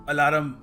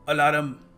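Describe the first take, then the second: The two takes are said the same way.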